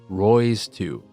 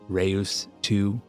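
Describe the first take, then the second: First: The name rhymes with 'boys'. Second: The name rhymes with 'Deus'. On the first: "which I believe is the pronunciation" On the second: "like Deus Ex"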